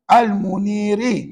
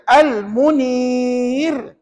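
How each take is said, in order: First: The word ends with its final vowel. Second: The word ends on the r sound. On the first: The reading continues without stopping. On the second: The reading stops at this word.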